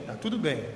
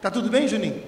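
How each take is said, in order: First: Imitated downcast answer, lower pitch; mock-sheepish "tudo bem", dropping away; sheepish reply. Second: Acted query with a lift on BEM; retold concerned check-in, lifted on "bem"; pastor's checking question. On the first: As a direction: answer low and falling, embarrassed. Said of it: "aquela cara dele de boi lambido". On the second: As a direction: ask "bem" with a raised pitch, checking on him. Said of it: "Aí falou assim".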